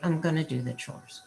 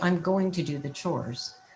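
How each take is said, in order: First: 'Going to' is reduced to 'gonna'. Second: 'Going to' is said in full. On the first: "but you can also say" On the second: "You can still say"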